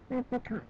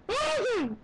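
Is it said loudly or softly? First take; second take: softly; loudly. First: It is said at normal volume. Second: It is said loudly.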